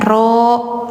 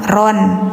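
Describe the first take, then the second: First: The word ends with a long vowel. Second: The word ends with an n sound. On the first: The speaker calls it right. "Bacanya ro, mad iwad hukumnya" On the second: The speaker calls it wrong. "bacanya jangan ron ya"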